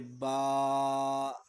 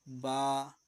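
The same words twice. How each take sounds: First: The syllable is stretched out too long. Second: The syllable is said evenly at normal length. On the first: The speaker calls it wrong. "ये ज़्यादा खींचना हो गया" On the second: The speaker calls it right. "Normal पढ़ना है"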